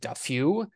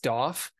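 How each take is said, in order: First: The name sounds like Duffew. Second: The name sounds like Doff. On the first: This is how some other people say it. The speaker calls it wrong. "some people on like the World Tour pronounce him as Duffew" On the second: This is the correct pronunciation. The speaker calls it right. "It's Doff"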